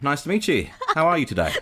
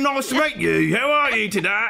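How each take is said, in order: First: A natural-sounding Australian accent with shifted vowels. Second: An exaggerated, stereotyped put-on Australian accent. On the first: The speaker calls it right. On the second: The speaker calls it wrong.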